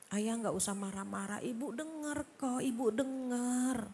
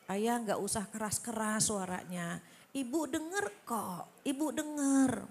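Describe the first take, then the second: First: Calm him down softly; soft gentle wife. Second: Gentle wife. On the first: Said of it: "dengan suara yang lembut". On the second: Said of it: "kita yang ngalah". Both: Retold or imitated.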